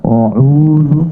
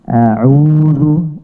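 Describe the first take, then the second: First: The opening hamzah is pronounced thick and heavy. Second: The opening hamzah is pronounced thin and light. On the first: The speaker calls it wrong. "itu berarti tebal" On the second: The speaker calls it right. "membaca dengan istifal atau tipis"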